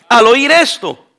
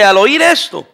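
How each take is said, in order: First: "al oír esto" read slowly, each word weighted; slowed, deliberate "al oír esto"; slow emphatic reread. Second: Said in the usual way. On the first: Shown as a demonstration. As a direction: linger on "al oír esto" to drive it home. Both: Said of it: "Hechos dos treinta y siete".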